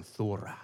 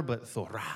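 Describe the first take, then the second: First: "thora" said with a rolled r, thaw-rah. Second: "thora", not Thor, with a rolled r and a soft ah ending. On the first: Preacher leading the crowd to say "thora" with a rolled r. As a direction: roll the tongue on the r in "thora". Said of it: "you gotta roll your tongue". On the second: Preacher contrasting Thor with a rolled-r "thora". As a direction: roll the r and add the ah in "thora". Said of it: "Kinda like Thor with a hammer". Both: Shown as a demonstration.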